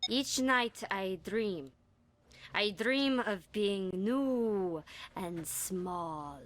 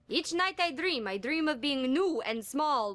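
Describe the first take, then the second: First: It is read with many long pauses. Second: It is read with few, short pauses.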